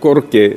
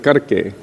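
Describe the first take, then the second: First: The first vowel sounds like 'o', Bengali-style. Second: The first vowel sounds like 'a', Hindi-style. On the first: This is how Bengali speakers say it. The speaker calls it wrong. "saying korke instead of karke" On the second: This is how the Hindi song should be said. The speaker calls it right. "But here, Gurudev Kripa Karke"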